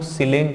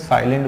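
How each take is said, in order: First: The first vowel is a short 'i' sound. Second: The first vowel is a long 'ai' sound. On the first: The speaker calls it wrong. "इसको हम लोग सिलेंट नहीं बोलते हैं" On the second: The speaker calls it right. "साइलेंट बोलते हैं"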